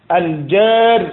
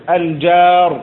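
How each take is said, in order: No difference in how they are said.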